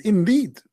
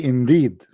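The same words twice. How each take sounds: First: "Indeed" said higher with a falling, grand tune; mock the grand "Indeed"; lightly pompous "Indeed" with a drop at the end; mock solemn emphasis. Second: Said in the usual way. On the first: Shown as a demonstration. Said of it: "look at this". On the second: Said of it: "I like it when he say".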